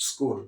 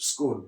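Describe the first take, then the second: The two takes are said the same way.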